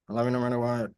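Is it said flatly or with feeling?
flatly. It is said flatly, like a robot.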